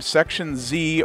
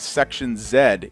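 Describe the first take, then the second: First: The Z is said the American way. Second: The Z is said the British way.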